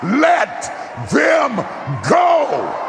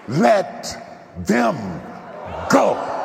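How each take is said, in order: First: It is said louder. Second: It is said at normal volume.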